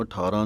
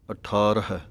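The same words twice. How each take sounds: First: ਅਠਾਰਾਂ ending in long aa, without h; misreading ਅਠਾਰਾਂ with the h dropped; mistaken aan ending. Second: ਅਠਾਰਹ ending in an audible h; careful ਅਠਾਰਹ with its last h; final h sounded. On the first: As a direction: end ਅਠਾਰਾਂ like the everyday number eighteen. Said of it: "ਨਹੀਂ ਕਹਿ ਦੇਣਾ". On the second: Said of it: "ਇਹਨੂੰ ਅਠਾਰਾਂ ਨਹੀਂ ਕਹਿ ਦੇਣਾ". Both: Shown as a demonstration.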